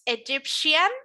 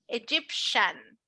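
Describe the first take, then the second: First: The ending has an extra 'ee' vowel: 'shee-an'. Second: The ending is a short 'shun' with no extra vowel. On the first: The speaker calls it wrong. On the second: The speaker calls it right.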